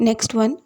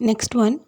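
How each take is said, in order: Both takes have the same delivery.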